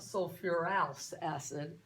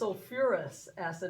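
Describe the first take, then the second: First: The ending sounds like 'ouse'. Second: The ending sounds like 'us'. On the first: The speaker calls it wrong. "not sulfurous acid" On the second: The speaker calls it right. "how you say this is, is sulfurous acid"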